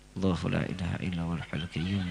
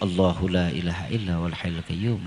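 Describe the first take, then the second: First: It is recited quietly, under the breath. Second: It is recited louder, in a raised voice.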